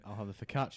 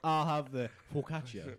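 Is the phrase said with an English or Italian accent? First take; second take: English; Italian. First: It is said with an ordinary English accent. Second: It is said with an Italian accent. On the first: The speaker just says it normally. "instead of just saying" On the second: The speaker tries to sound like a local. "say the name of the dish, with an Italian accent"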